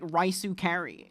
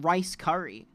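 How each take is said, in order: First: Rice is said with an extra final vowel. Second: Rice is said as a single syllable. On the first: The speaker calls it wrong. "You don't need to be like raisu curry" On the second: The speaker calls it right. "It's r- chicken rice curry"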